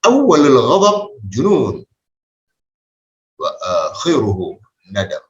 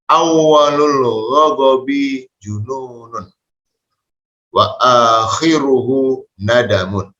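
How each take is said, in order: First: The final vowel endings of words are dropped. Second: Every word keeps its full final vowel ending. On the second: "Kalau kita baca harokatnya secara utuh"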